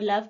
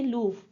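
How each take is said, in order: First: The vowel is a short 'uh' sound. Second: The vowel is a long 'oo' sound. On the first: The speaker calls it right. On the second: The speaker calls it wrong.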